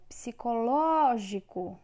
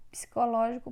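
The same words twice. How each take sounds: First: Psicológico said slowly, lo louder; teacher marking the stressed syllable for pupils; stress shown. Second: Said in the usual way. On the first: Shown as a demonstration. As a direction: lean on the lo of Psicológico. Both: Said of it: "é proparoxítona".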